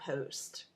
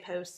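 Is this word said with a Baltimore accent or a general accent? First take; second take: Baltimore; general. First: The vowel has a strong Baltimore colouring. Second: The vowel is said in a general American way. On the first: "straight up Baltimore" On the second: "Like if you say post"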